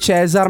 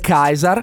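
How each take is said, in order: First: The word begins with a ch sound. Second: The word begins with a k sound. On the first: The speaker calls it wrong. "lui dice Cesar" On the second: The speaker calls it right. "in realtà la pronuncia sarebbe Kaiser"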